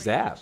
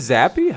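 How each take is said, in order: First: The name ends on the p sound. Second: The name ends in an ee sound. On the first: "I thought it was just Zap" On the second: "Is it Zappy?"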